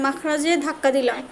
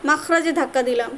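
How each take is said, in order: Both takes have the same delivery.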